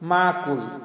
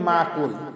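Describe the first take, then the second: No difference in how they are said.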